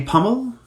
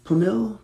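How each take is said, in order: First: "Pummel" stressed on the first syllable, PUM-ul; unsure pronunciation. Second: "Pummel" with weight on the second syllable, pum-ILL; alternative pronunciation. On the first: Streamer guessing a fan's surname, "Pummel" as PUM-ul. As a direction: try "Pummel" as PUM-ul, tentatively raised. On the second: Streamer retrying a fan's surname, "Pummel" as pum-ILL. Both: Real, not acted. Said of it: "I'm probably massacring that".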